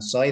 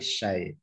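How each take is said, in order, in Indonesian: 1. Kata ini diawali bunyi s biasa. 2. Kata ini diawali bunyi sh. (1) "bukan soy" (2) "tapi syai"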